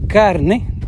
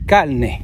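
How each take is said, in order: First: The r is pronounced as a plain r. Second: The r is pronounced like an l sound. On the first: "En vez de decir carne" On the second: "hablan las palabras con la L"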